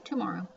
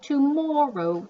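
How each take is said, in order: First: Said in the usual way. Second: Tomorrow slow, high and loud; slow emphatic Tomorrow; drawn out. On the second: Shown as a demonstration. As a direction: stretch out Tomorrow for the learner.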